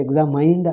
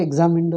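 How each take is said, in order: First: "examined" said ex-a-MINED, like the word "mind"; "examined" with a long i, ending "mained"; imitating the wrong examined. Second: Examined with a long "mind" ending, one syllable; "examined": ig-ZAM-ind, plain short ending; correct examined. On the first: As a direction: mimic the pupil's "examined" rhyming with mind. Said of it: "but you say examined". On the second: Shown as a demonstration. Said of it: "I thought examined alone, but you say".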